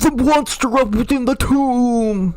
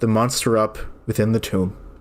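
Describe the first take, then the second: First: It is read loudly, with excited energy. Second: It is read flatly, with little energy. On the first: The speaker calls it right. "That better?" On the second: The speaker calls it wrong. "There was an exclamation point that was not very exclamative"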